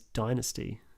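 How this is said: It is said with an American pronunciation. "the U S pronunciation is"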